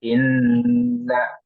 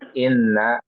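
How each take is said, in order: First: The nasal n sound is held for a while. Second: The nasal n sound is cut short. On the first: The speaker calls it right. "ditahan dua sampai tiga ya harokat" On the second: The speaker calls it wrong. "bukan inna. Ini keliru"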